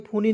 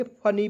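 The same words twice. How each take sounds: First: फूनी with a long oo, the wrong way; wrong vowel. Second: फनी with a short a, as in funny; correct pronunciation. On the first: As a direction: say फूनी stretching the oo like foo-nee. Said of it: "फूनी नहीं पढ़ेंगे". (फूनी को लंबे ऊ के साथ, गलत उच्चारण) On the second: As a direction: say फनी crisply, short first vowel. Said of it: "फनी पढ़ेंगे". (फनी को छोटे अ के साथ, सही उच्चारण) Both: Shown as a demonstration.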